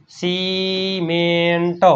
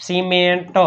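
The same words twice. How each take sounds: First: cement very slowly, each syllable stretched; drawn-out sounding-out. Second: Said in the usual way. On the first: Shown as a demonstration. Teacher repeats cement for students, very slowly.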